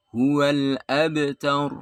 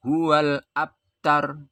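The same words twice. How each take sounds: First: Abtar with a small echoing bounce on the b; correct bounced b. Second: Abtar with the b said dead, no echo; wrong no bounce. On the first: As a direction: let the b in abtar bounce lightly. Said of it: "harus mantul". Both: Shown as a demonstration.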